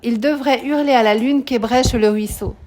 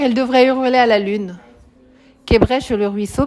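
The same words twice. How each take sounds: First: The line runs on without a pause after lune. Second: There is a pause after lune before the rest. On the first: The speaker calls it right. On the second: The speaker calls it wrong.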